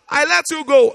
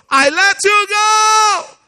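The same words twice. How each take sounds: First: Said in the usual way. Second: High, slow, loud cry of release; shouted release. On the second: Real, not acted. Preacher crying out to the congregation, high and loud. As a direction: cry it out with full force.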